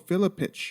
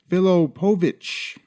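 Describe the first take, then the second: First: The name is said with three syllables. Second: The name is said with four syllables. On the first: The speaker calls it wrong. "I mispronounced Mirko Cro Cop's name. I called him Mirko Filipich" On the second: The speaker calls it right. "It's actually Filipovich"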